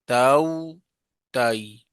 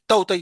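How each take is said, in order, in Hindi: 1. स्वर की ग्लाइड नरम और सहज है। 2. स्वर की ग्लाइड झटके से काटी जाती है। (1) "उसको नरमी से अदा करना चाहिए।" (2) "इस तरह नहीं करना। ... झटका नहीं देना।"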